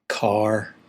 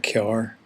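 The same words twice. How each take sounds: First: It is said in a standard pronunciation. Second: It is said in a local County Down pronunciation. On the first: "find very hard to say" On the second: "To us, it's a car"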